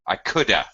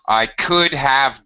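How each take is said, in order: First: The word 'have' is reduced to a schwa. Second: The word 'have' is pronounced in full.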